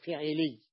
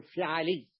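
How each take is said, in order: First: فعلي said slowly with i in both syllables, "fi'ili"; kasra kept. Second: فعلي said with i then a, "fi'ali"; middle fatha. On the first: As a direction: echo the first i on the 'ayn of فعلي. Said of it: "إبقاء الكسرة". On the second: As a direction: open the 'ayn of فعلي to a after the first i. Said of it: "الأصل أن تقول فعلي". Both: Shown as a demonstration.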